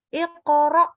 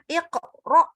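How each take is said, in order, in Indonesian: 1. Huruf q langsung menyambung ke suku kata berikutnya. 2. Suaranya terputus setelah q. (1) "disambung ... Jadi langsung iqra" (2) "mutus suaranya. Jadi jangan iqra"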